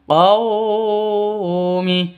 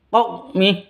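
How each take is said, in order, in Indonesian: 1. Bunyi 'qaw' dipanjangkan. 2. Bunyi 'qaw' dipotong mendadak. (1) "Atau dipanjangkan. Qaumi, salah" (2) "tidak boleh disentak. Qaumi, salah"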